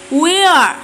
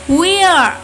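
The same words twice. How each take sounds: Both takes have the same delivery.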